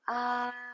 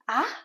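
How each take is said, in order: First: The pitch stays high and level. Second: The pitch rises toward the end. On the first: "the first tone, you like a very old person. Everything is flat" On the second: "the second tone, you like a children, full of surprise"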